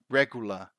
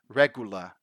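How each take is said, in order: The two takes are said the same way.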